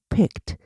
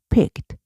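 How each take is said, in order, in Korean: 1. 끝 자음은 끊고 부드럽게 발음해요. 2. 끝 자음은 끊고 부드럽게 발음해요.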